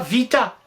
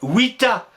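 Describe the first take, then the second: First: The word begins with a v sound. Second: The word begins with a w sound. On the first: This is how it is taught at school. The speaker calls it wrong. "les Romains ne disaient pas vita" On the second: This is how the Romans said it. The speaker calls it right. "ils disaient vita"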